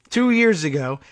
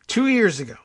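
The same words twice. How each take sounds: First: It is said plainly, without emphasis. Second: It is said with strong emphasis.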